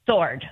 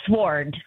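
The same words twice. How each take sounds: First: Sword with silent w; right pronunciation. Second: Sword with the w sounded; mispronounced. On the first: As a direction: say sword as SORD. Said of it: "instead of". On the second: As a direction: say sword with sw as in swore. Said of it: "I read it as". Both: Shown as a demonstration.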